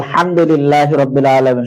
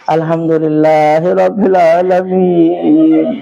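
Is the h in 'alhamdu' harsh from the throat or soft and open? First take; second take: harsh; soft. First: The h is harsh, squeezed in the throat. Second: The h is soft, with an open throat. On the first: All praise belongs to God. The speaker calls it right. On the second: It wishes death upon God. The speaker calls it wrong.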